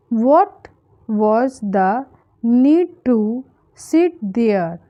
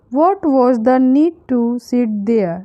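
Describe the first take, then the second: First: Slow, in small chunks with pauses; broken-down sentence. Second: Said in the usual way. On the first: Shown as a demonstration. Teacher breaking down an English sentence for learners, slow and chunked. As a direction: pause after "What", then "was the need to", then "sit there".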